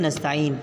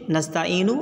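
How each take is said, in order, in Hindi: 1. शब्द n पर खत्म होता है, कोई स्वर नहीं। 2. शब्द एक छोटी u स्वर से खत्म होता है। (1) "बल्कि नस्तईन पढ़ें" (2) "आप ना पढ़ें"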